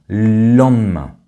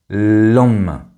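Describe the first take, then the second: Both takes have the same delivery.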